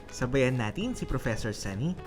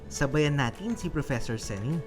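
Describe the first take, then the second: The two takes are said the same way.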